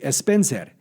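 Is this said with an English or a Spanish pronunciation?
Spanish. Spanish pronunciation with an added initial vowel, rolled R. "every letter is pronounced with a Spanish pronunciation. Even the R would have a roll"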